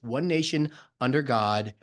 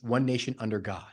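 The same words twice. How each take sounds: First: There is a pause after 'nation'. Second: There is no pause after 'nation'. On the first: God is set apart from the nation. The speaker calls it wrong. "when we put a space there, we divide God from the nation" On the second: The nation and God are kept together. The speaker calls it right. "There is no space between one nation and under God"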